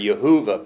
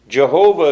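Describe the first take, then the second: First: The name begins with a Y sound. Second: The name begins with a J sound. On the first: The speaker calls it right. "or Yehovah perhaps was the way it was pronounced" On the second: The speaker calls it wrong. "Jehovah is not entirely correct either, because there is no J sound in Hebrew"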